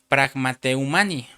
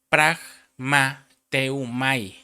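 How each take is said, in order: First: An n sound comes before the final syllable. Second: No n sound comes before the final syllable. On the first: The speaker calls it wrong. "perdón, sin N" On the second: The speaker calls it right. "sin N"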